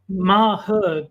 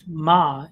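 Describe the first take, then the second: First: It is two syllables with a clear H. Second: It is one syllable with a faint H. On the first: "it's sort of ma her, but it's like sort of compacted into a single syllable" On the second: "when I say it's pronounced ma"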